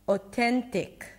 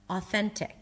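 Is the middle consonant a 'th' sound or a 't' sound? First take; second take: t; th. First: The middle consonant is a 't' sound. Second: The middle consonant is a 'th' sound. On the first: The speaker calls it wrong. "I mispronounced three sounds" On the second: The speaker calls it right. "you don't pronounce the teak there, it's tuk"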